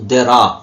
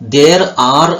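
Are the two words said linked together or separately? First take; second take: linked; separately. First: The two words are run together. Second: The two words are said separately. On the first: "ಕೂಡಿಸಿ ಹೇಳ್ಬೋದು" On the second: "ದೇರ್ ಆರ್ ಅಂತ ಹೇಳೋದ್ರ ಬದಲು"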